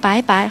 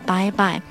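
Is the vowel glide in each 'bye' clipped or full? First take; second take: clipped; full. First: The vowel is clipped, with no full glide. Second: The vowel glides fully to the final i. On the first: The speaker calls it wrong. "不要发成拜拜" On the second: The speaker calls it right. "就是要把I 发充分"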